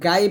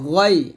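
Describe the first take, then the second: First: The vowel is an open 'aa' sound. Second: The vowel is a rounded 'o' sound. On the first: The speaker calls it wrong. "এখানে গাই বলবেন না" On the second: The speaker calls it right. "বলতে হবে গয়"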